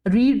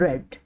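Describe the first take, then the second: First: The vowel is long, like 'reed'. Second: The vowel is short, like 'red'. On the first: It is the present form of the verb. "रीड नहीं बोलांगे" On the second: It is the past form of the verb. "आपां बोलांगे रेड"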